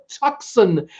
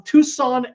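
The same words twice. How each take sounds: First: Tucson said TUCK-son, with the c sounded as k. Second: Tucson said TOO-sahn, no k sound. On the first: Playful second take of Tucson. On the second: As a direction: say Tucson with a long oo and no k. Says town name two ways. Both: Shown as a demonstration.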